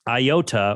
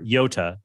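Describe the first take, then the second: First: The word starts with an 'eye' sound. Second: The word starts with a 'y' sound. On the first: The speaker calls it wrong. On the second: The speaker calls it right.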